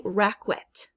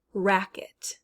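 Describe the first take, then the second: First: RACKET mispronounced "RACK-wet"; wrong, with qu. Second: RACKET as "RACK-et"; plain k in RACKET, no w; correct k sound. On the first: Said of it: "we don't say racket". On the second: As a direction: say RACKET slowly with a bare k. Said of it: "Q U is actually making a k". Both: Shown as a demonstration.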